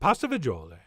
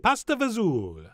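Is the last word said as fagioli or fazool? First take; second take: fagioli; fazool. First: The last word has three syllables, ending in -oli. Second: The last word is shortened to one syllable, fazool. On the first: The speaker calls it right. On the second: The speaker calls it wrong. "we are pronouncing it and spelling it wrong"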